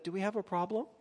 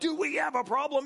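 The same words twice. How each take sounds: First: It is asked in a plain, neutral tone. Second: It is asked in a hostile, confrontational tone. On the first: The asker is simply checking in. "she might have said" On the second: The asker is challenging the listener. "It felt very much like"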